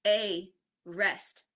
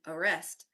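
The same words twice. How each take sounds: First: "a rest" split with a gap between the words; two separate words. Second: "arrest" run together as one word; said quickly. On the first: Teacher contrasting a pun's two readings, separated words. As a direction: say "a" fully, then "rest" on its own. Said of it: "how this word arrest compared to". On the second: Teacher showing how the pun works, quickly joined. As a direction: blend "arrest" with a reduced first vowel. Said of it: "when it's said very quickly". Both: Shown as a demonstration.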